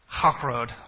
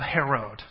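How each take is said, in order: First: The first h is a deep, guttural h. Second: The first h is a plain, light h.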